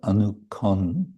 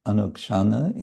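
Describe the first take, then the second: First: The middle has a plain 'k', ending in 'on'. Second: The middle has a 'ksh' sound, ending in 'ana'. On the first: This is the Bengali pronunciation. "in Bengali pronunciation" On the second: This is the Sanskrit pronunciation. "in Sanskrit"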